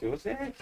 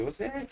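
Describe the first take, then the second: First: The name is said as it is spelled. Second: The same.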